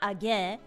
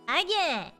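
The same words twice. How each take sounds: First: The pitch stays level on the last syllable. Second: The pitch goes up on the last syllable. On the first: The speaker calls it wrong. "So it's not" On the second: The speaker calls it right. "the ge has to go up"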